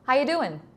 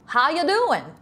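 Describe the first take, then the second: First: It has a milder, more contained Southern accent. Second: It has a broad, exaggerated Texan Southern accent. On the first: "the American Southern accent" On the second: "Texas is just big, so big everything"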